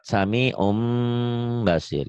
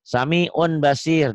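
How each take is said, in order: First: An m sound comes before basir. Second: An n sound comes before basir.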